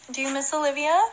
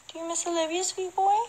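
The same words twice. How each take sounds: First: Higher sing-song voice for the dog; pet talk. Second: Cooing pet voice. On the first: Godmother asks the dog about Olivia in pet talk. Talking to her dog Docky. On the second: Godmother coos to the dog, higher and soft. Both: Real, not acted.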